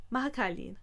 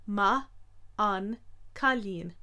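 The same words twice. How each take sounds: First: Maha cailín run together without the N; N dropped. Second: Ma an cailín slow with the N sounded; each syllable apart; said slowly. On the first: Teacher giving the usual spoken form. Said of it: "the N is usually dropped". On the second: Teacher showing the full slow form. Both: Shown as a demonstration.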